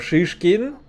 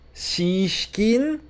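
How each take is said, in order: First: The name begins with a harsh sh sound. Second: The name begins with an s sound. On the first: The speaker calls it right. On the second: The speaker calls it wrong.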